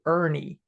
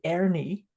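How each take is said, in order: First: ERNIE with an r-coloured "ur" vowel; North American pronunciation. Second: ERNIE with an open "air" vowel and tapped r; Scottish pronunciation. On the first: Host showing how North Americans say the name, North American pronunciation. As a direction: say Ernie as "UR-nee", American style. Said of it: "North American people would say Ernie". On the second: Host showing how she would say the name, Scottish pronunciation. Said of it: "I would say Ernie". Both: Shown as a demonstration.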